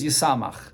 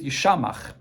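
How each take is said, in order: First: The second consonant is pronounced 's'. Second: The second consonant is pronounced 'sh'. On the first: It makes one happy. "the way it's read though is Yisamach" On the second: It makes one desolate or crazy. "read it the way it's written, so you read it with a shin"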